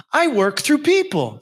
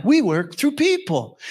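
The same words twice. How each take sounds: First: "I work through PEOPLE" with the weight on "people"; preacher stressing "people"; preached emphasis. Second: "WE work through people" with the weight on "We"; preacher stressing "We"; preached emphasis. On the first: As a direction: land hard on "people", slowly. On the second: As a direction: punch "We", then slow down. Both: Acted. Repeated sermon line, stress shifts.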